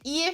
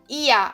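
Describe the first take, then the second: First: The word ends with a consonant R sound. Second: The word ends with a vowel 'ah' sound. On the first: The speaker calls it wrong. "Ao invés de ir" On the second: The speaker calls it right. "fica ia"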